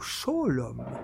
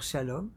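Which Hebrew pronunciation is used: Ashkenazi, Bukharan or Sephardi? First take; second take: Bukharan; Sephardi. First: It is said with a Bukharan Hebrew pronunciation. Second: It is said with a Sephardi Hebrew pronunciation. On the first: "כמו הבוכרים" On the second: "כמו הספרדים"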